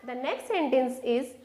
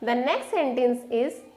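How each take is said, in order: Both takes have the same delivery.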